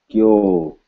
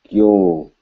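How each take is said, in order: The two takes are said the same way.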